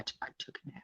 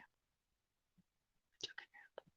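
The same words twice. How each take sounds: First: Hushed aside; whispering. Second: Slow, drawn-out whisper. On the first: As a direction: whisper it quickly. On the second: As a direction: whisper it slowly. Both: Real, not acted.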